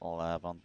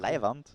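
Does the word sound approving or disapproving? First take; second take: disapproving; approving. First: It is said in a disapproving way. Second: It is said in an approving way. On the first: Something is bad. "Leiband is bad" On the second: Something is great. "Leiband is good"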